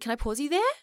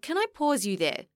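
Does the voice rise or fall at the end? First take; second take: rise; fall. First: The voice rises at the end. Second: The voice falls at the end.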